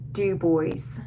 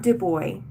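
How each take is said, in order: First: The final S sound is clearly pronounced. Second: The final S sound is left silent. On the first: The speaker calls it right. "You have to say the S" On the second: The speaker calls it wrong. "it is not Du Bois. Do not do not drop the S"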